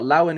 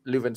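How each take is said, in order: First: "Lauwen" with a LAU first syllable; mispronounced name. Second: "Leuven" with a LOO first syllable; corrected pronunciation. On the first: Host naming a midfielder, mispronounced as "Lauwen". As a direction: say "Lauwen", first vowel as in "loud". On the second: Host correcting a player's name to "Leuven", LOO-vin. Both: Real, not acted.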